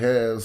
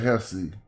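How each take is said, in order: First: The word ends on a consonant, no final vowel. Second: The word ends with a pronounced final vowel. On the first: The speaker calls it wrong. "don't say has" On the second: The speaker calls it right. "say Hesse"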